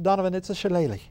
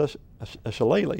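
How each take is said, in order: First: Imitated Irish accent, pitched higher; Irish lilt on "shillelagh", said /ʃəˈleɪli/. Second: Said in the usual way. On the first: Retelling how the Irish doctor corrected him, in a light Irish accent. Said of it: "with that Irish accent".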